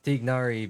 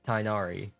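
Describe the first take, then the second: First: The first syllable sounds like 'tig'. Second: The first syllable sounds like 'tie'.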